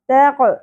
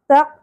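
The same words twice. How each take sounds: First: The final q is released with an echoing bounce. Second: The final q is closed without any echoing bounce. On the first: The speaker calls it right. "قاف ساکن پہ قلقلہ بھی ہوگا" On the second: The speaker calls it wrong. "تق نہیں پڑھنا"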